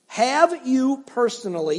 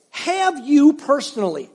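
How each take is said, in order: First: Slow, with weight on "have" in "have you personally"; stress on have. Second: Slow, with weight on "you" in "Have you personally"; stress on you. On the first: Pastor repeating the question with stress on "have". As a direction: lean on "have", pushing for an honest answer. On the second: Pastor pressing the congregation on "you". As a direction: lean into "you", asking each person directly. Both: Shown as a demonstration.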